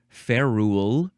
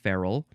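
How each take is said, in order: First: The second syllable sounds like 'rule'. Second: The second syllable is a weak 'ral'. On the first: The speaker calls it wrong. "it looks like ferule, but it's not" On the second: The speaker calls it right. "it's feral"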